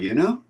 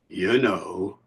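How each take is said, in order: First: It is said high, like a question. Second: It is said slowly with a low rise. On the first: Do you realize, or is that okay with you? "One is high up, like a tag question" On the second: There is an issue both people already know about. "low rising intonation and usually said slowly"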